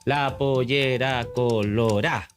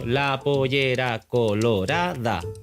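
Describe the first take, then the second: First: The last word is clipped to three syllables. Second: The last word is said in full, four syllables. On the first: "Tiene solo siete" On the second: "Tengo ocho sílabas ahí"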